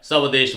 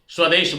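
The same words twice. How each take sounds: First: The 's' gets its own vowel before 'w'. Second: The 's' joins the 'w' as one cluster. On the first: The speaker calls it wrong. "अर्ध सकार जहां है उसको हम पूर्ण बोल देते हैं" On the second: The speaker calls it right. "स्वदेश बोलना है"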